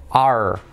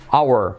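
First: "our" said as one syllable, "ar"; short one-syllable "are"; native reduced "our". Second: "our" in two syllables, "OW-er"; full diphthong in "our"; schoolbook pronunciation. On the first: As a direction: flatten "our" to sound like "are". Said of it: "ellos siempre dicen are". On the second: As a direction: say "our" like "hour". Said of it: "Te enseñan en las escuelas a decir". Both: Shown as a demonstration.

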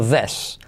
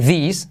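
First: "this" como "des", con e abierta. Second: "this" con i cerrada, como "dis". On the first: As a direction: di "this" cambiando la i por e. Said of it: "sino this". ("this" más grave, con e) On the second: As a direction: di "this" con una i española. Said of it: "No se dice this". ("this" acabado en "is") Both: Shown as a demonstration.

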